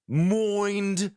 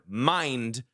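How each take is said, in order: First: The vowel sounds like 'oy'. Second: The vowel sounds like 'eye'.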